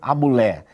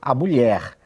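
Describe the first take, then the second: First: The final R sound is dropped. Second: The final R sound is pronounced. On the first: The speaker calls it wrong. "Numa situação formal, no ambiente de trabalho, eu não vou dizer" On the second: The speaker calls it right. "eu vou dizer"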